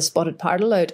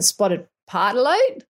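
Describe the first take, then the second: First: It is said in a non-Australian accent. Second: It is said in an Australian accent. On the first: "maybe I'm pronouncing it wrong" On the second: "Shall I say it in Australian accent?"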